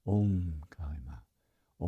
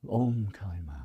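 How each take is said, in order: First: Slow whispered mantra, lower and softer; soft slow whispered chant of the mantra; silent repetition. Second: Said in the usual way. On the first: Shown as a demonstration. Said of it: "now it's just a silent repetition over and over". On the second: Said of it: "now it's just a silent repetition".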